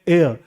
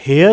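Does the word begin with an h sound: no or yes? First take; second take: no; yes. First: The word starts with a vowel, no h. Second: The word starts with an audible h sound. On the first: The speaker calls it right. "हम क्या बोलते हैं? एयर" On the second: The speaker calls it wrong. "तो इसे हम हेयर नहीं बोलते"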